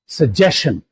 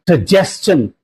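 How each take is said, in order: First: The ending does not sound like stun. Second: The ending sounds like stun. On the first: The speaker calls it wrong. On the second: The speaker calls it right. "it will be pronounced as stun"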